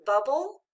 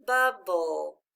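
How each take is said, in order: First: Said in the usual way. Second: "Bubble" slowly in two parts, bub-bull; measured, falling "Bubble", each syllable distinct; syllable-by-syllable reading. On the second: Shown as a demonstration. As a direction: sound out "Bubble" with the second syllable held. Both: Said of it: "Let's read it together".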